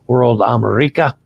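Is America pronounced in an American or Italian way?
Italian. America is pronounced with an Italian accent. "I use the Italian pronunciation"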